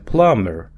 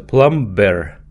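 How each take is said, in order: First: The b sound is silent in the word. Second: The b sound is pronounced in the word. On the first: The speaker calls it right. "не читается буква B, а читается plumber" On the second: The speaker calls it wrong. "пишется plumber"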